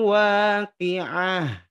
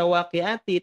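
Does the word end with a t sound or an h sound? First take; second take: h sound; t sound. First: The word ends with a breathy h sound. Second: The word ends with a t sound and a vowel. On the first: The reader stops at the end of the verse. "karena ada di ujung ayat, maka Bapak Ibu bacanya" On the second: The reading continues without stopping. "Awalnya dibaca waqi'ati"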